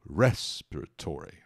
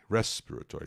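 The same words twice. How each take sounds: First: Respiratory stressed on RES, slowed; RES-piratory, weight on the first syllable; teacher showing where the stress falls. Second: Respiratory with RES main and tó secondary; RES-pira-TOry with a lighter second beat; teacher repeating respiratory at normal pace; secondary stress. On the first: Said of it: "a tônica é a primeira sílaba". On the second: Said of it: "Tem uma subtônica ali no tó". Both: Shown as a demonstration.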